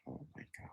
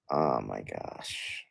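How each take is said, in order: First: Defeated whisper. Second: Defeated groan. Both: Real, not acted.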